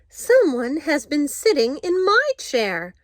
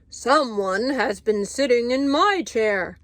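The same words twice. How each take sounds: First: It is said in a middle-sized voice. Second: It is said in a great big voice.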